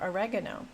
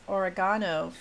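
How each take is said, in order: First: It is said the American way. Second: It is said the Australian way. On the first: "for oregano" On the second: "he says oregano"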